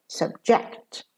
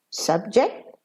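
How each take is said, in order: First: "subject" stressed on JECT, weak "sub"; verb stress. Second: "Subject" stressed on SUB; noun stress. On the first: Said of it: "and as a verb". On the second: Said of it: "as a noun". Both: Shown as a demonstration.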